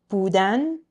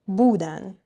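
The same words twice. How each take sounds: First: بودن with the final -dan stressed and rising; last-syllable stress. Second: بودن with the first syllable bu stressed; next-to-last-syllable stress. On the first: Teacher comparing the infinitive, بودن stressed on its last syllable. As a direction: say بودن as buDAN, leaning on the ending. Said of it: "So compare these two, the infinitive". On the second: Teacher comparing the they form, بودن stressed on bu. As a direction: punch the start of بودن, BUdan. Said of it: "Next to last syllable". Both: Shown as a demonstration.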